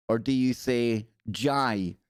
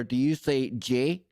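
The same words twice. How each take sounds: First: "Jai" rhymes with "eye", slow; Glasgow Jai. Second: "J" said as the plain English letter name; standard letter J. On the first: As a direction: stretch out the Glaswegian "Jai" like "dżaj". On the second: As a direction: say "J" like "jay". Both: Shown as a demonstration.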